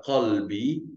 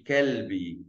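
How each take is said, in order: First: Qalbi with the Q from the throat; throaty Arabic Q. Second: Kelbi with an ordinary front K; plain K sound. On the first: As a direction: start Qalbi with a guttural back Q. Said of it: "a primeira palavra aqui pronuncia Qalbi". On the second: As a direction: say Kelbi with a simple K, no throatiness. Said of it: "Isso palavra pronuncia Kelbi". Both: Shown as a demonstration.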